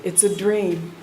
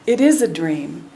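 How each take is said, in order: First: Said in the usual way. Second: "It is a dream" with the weight landing on "is"; stress on IS. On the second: Shown as a demonstration. Teacher insisting to listeners that life is a dream, stressing "is". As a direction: lean into "is" to insist it really is.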